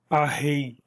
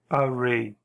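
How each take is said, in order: First: It is said with Portuguese-style sounds. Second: It is said with English-style sounds. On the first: The speaker calls it wrong. "uma espécie de aportuguesamento do inglês" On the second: The speaker calls it right. "Na hora que você for falar inglês, é importante que você fale array"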